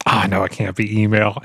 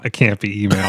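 First: Said in the usual way. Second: Sudden shout of realization; excited exclamation. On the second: Real, not acted. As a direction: burst it out in disbelief.

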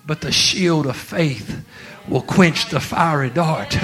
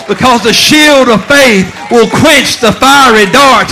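First: Slow, weighty quote. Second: Loud, high preacher's cry with a laugh; the verse thundered from the pulpit; preached at full force. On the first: Retold or imitated. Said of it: "And God's saying". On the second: Acted. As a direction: shout the promise out, laughing with joy.

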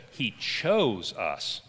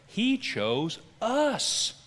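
First: "chose" drawn out and emphasized; slow reading that lands on "chose"; stress on CHOSE. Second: "He" and "us" drawn out high, slowly; very slow, lifting "He" and "us" high; stress on HE and US. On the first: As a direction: lean long and hard on "chose". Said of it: "put the emphasis in that passage". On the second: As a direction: stretch "He" and "us" with raised pitch. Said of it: "How about reading it this way". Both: Shown as a demonstration.

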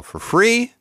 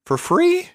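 First: Incredulous rising question; mock outrage. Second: Squeaky mock outrage. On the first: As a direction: act shocked at the idea. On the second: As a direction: jump up into a shrill squeak. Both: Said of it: "I don't think so".

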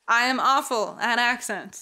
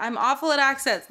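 First: "I am awful" said word by word, uncontracted; deliberate, spaced-out "I am awful at accents"; emphatic clarification. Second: Said in the usual way. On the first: Real, not acted. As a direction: stress each word of "I am awful" to make it clear. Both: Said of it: "Let me clarify that".

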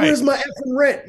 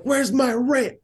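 First: Put-on high, louder squeaky kid yelling; gruff impatient scolding. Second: Put-on high squeaky kid demanding rent; gruff impatient scolding. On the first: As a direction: scold harder, like a furious little landlord. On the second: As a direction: scold like a tiny angry landlord. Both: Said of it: "And she's like".

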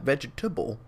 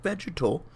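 First: Vegetable said as the common veggie word, VEJ-tuh-bul; wrong word. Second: Vegetal said VEJ-uh-tul, three syllables, no -able; right word. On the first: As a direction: say vegetable, the everyday food word, before the correction. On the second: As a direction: stress the first syllable of vegetal, end on -tul. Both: Shown as a demonstration. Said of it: "not vegetable, but vegetal".

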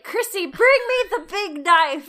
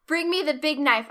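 First: Big operatic wail, higher and louder; hammed-up tragic cry. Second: Said in the usual way. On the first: Ronnie hams up his agony before the bakery, operatic wail. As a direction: belt it out like a wounded opera hero. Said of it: "And then it's like". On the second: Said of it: "he says the iconic words".

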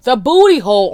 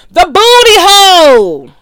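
First: Said in the usual way. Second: The booty hole shouted much higher and louder, drawn out; grand exclamation. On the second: Real, not acted. Exalting her topic to listeners, with a loud proclamation. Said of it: "repeats it as a big exclamation".

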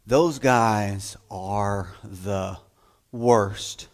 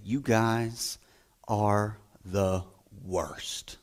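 First: Put-on slow, low, knowing drawl about the boys; mock teacher to girls. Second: Low, soft, mock-dismissive voice to the boys; deadpan put-down of the boys; mock teacher scolding. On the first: Teacher warns the girls class about boys, slow and low. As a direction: drag it out in mock warning. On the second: Teacher tells the boys class they are the worst, low and soft. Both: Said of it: "they would say".

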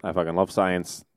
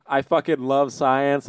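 First: Much lower, softer mock retraction of "I fucking love science"; sheepish, understated "I fucking love science"; backtracking. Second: Slow sneering "I fucking love science" as a slogan; mock the Facebook page with "I fucking love science"; contemptuous "I fucking love science", drawn out. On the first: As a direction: quietly take back the rant with "I fucking love science". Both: Shown as a demonstration. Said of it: "I was joking".

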